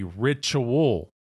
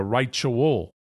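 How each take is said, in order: First: Said in the usual way. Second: "ritual" opening like "rite", RYE-choo-ul; ritual as rite-ual. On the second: Shown as a demonstration. Lecturer showing the rite inside the word, "ritual" said RYE-choo-ul.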